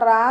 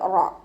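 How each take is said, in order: First: The syllable is light with an open a vowel. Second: The syllable is heavy with a rounded o-like vowel. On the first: The speaker calls it wrong. "മലയാളത്തിൽ നമ്മൾ റാ എന്ന് പറയുന്നത് പോലെ പറയരുത്" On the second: The speaker calls it right. "ഉയർത്തിയിട്ട് ഉച്ചരിക്കുക"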